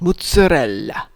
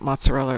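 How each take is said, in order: First: It is said with an Italian-style accent. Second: It is said with a plain American accent.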